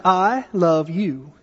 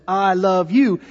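First: Slow tender. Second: Said in the usual way. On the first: Retold or imitated. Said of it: "I looked at him and I said". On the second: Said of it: "He looked back at me and said".

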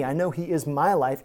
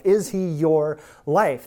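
First: MY stressed against your; "my" picked out as the key word. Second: Slow question with YOUR drawn out; "your" stretched, turned on the listener; stress on YOUR. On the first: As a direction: lean on "my" to make it personal. Contrasts own life with the listener's. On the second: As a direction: hit "your" and slow right down. Turns the claim onto the listener. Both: Real, not acted.

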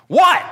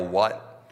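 First: Loud, high-pitched shout down the stairs; sudden high holler of WHAT; yelled reply. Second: Said in the usual way. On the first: Retold or imitated. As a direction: yell it back to someone downstairs. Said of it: "And so he yells down". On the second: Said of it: "you know you don't yell".

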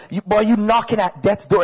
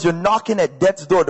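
First: Mom's Bajan accent, imitated. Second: Said in the usual way. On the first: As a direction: say it like a Bajan mother. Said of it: "That was a Bajan accent". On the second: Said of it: "In other words".

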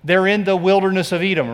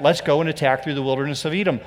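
First: Said in the usual way. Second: Mock eager plan, quick. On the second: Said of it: "Remember when they said that?".

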